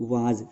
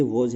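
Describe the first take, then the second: First: वाज with a long open aa, the mistaken way; learner's common mispronunciation वाज; wrong vowel demo. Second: वॉज with a rounded aw vowel; teacher's correct model वॉज; correct pronunciation. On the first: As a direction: say वाज as vaaz, long flat aa. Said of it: "वाज नहीं होता है". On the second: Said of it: "क्योंकि ये वॉज है". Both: Shown as a demonstration.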